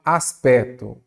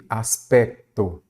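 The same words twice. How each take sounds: First: "aspecto" said as as-PE-to, with no k; dropped C. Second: "aspecto" slowly, with the k heard before t: as-PEK-to; sounded C. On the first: Teacher showing the modern spelling, "aspecto" without its C. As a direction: leave out the k sound in "aspecto". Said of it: "a grafia moderna já mostra". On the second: Teacher showing the spelling with C T, "aspecto" with a clear k. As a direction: articulate both C and T in "aspecto". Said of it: "com C T". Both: Shown as a demonstration.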